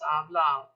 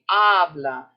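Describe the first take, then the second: First: The stress is on the last syllable. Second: The stress is on the first syllable. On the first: The speaker calls it wrong. "It's not hablo, hablas, habla" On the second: The speaker calls it right. "And this is going to be habla"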